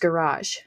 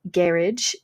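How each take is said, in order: First: It is said with an American pronunciation. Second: It is said with a South African pronunciation. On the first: "Which is actually more American pronunciation" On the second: "is what the South African said"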